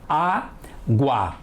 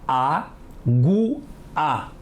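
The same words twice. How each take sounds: First: The final two vowels form one syllable. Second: The final two vowels form two syllables. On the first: The speaker calls it right. "O A são pronunciadas juntas, certo?" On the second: The speaker calls it wrong. "O A são pronunciadas separadas, errado"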